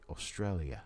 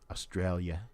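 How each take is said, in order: First: The 'i' is sounded as an extra syllable. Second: The 'i' is not sounded as a separate syllable. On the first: This is how people in Australia say it. "They say it Australia. It's a little bit of an extra syllable in there where the I is" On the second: This is how the speaker's own community says it. "We say it Australia or Australia"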